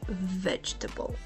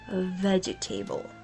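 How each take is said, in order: First: It is shortened to three light syllables. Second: Every letter and syllable is pronounced. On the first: The speaker calls it right. "simplify it to three sounds" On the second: The speaker calls it wrong. "because of the spelling, which would sound like vegetable"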